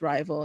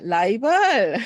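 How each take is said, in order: First: It is said with an American English accent. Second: It is said with a Korean accent.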